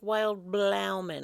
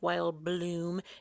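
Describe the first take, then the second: First: The second word is two syllables with an ow vowel. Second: The second word is one syllable with an oo vowel. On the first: The speaker calls it wrong. "It looks like it's spelled like" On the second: The speaker calls it right. "It doesn't look like it's spelled like Wild Bloom"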